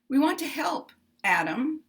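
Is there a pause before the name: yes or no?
yes. There is a pause before Adam.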